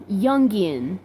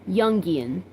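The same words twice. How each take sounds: Both takes have the same delivery.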